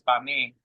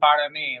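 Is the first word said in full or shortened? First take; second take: shortened; full. First: The first word is cut short. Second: The first word is said in full. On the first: This is how it is said in Puerto Rico. "here it's pa me. Like they drop they drop that" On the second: This is how it is said elsewhere. "everywhere else is like"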